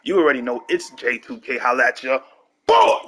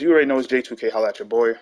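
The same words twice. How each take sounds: First: It is said with lots of energy. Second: It is said with little energy.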